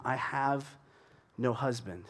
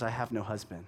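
First: Said in the usual way. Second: Quiet, blunt "I have no husband"; a woman giving a short, closed-off answer; curt reply. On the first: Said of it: "It's short". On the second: Shown as a demonstration. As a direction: shut the topic down in four words. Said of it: "It's short. It's four words".

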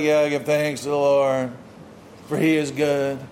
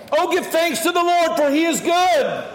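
First: Low, half-hearted mock thanksgiving; unmoved praise. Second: High, ringing call to give thanks; exuberant praise shout. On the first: Worshipper who hasn't seen God act, half-hearted praise. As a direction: recite it with no passion, pitched well down. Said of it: "You haven't seen God do these things, and so you're like". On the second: Shown as a demonstration. Preacher rousing the congregation to thank God, exuberant praise shout. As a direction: proclaim it with full-voiced passion.

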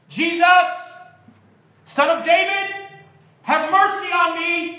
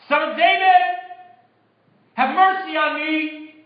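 First: High, loud cry for mercy; desperate shout. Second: High, loud, drawn-out plea; louder, insistent shout. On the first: Blind beggar calls out to Jesus passing by, shouting. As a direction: call out loud across a crowd, pitch way up. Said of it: "he began to shout". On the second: Hushed beggar refuses silence and calls to Jesus, shouting louder. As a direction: shout it high over the crowd's objections. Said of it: "he only shouted louder". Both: Acted.

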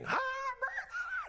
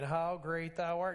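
First: Very high, cracking shouted screech; a man with no volume control bellowing the hymn; imitated scream. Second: Said in the usual way. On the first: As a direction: scream it out at full volume off key. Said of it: "he'll be screaming". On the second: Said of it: "everybody will be singing".

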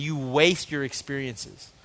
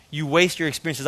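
First: Slow emphasis. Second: Said in the usual way. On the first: Shown as a demonstration.

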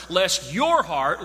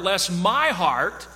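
First: Slow, leaning on "your" in "lest your heart"; "your" drawn out and stressed, aimed at the congregation. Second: Slow, leaning on "my" in "lest my heart"; "my" drawn out and stressed, owning the warning. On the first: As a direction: point at the listener with "your". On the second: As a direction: turn it on yourself with "my". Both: Shown as a demonstration.

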